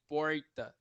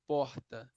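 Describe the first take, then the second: First: The R is said like an American R. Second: The R is said the speaker's own regional way.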